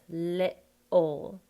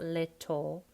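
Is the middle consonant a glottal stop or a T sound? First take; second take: glottal stop; T sound. First: The middle consonant is a glottal stop. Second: The middle consonant is a clear T sound. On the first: The speaker calls it right. "like an uh, uh. It's called a glottal" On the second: The speaker calls it wrong. "So it's not little"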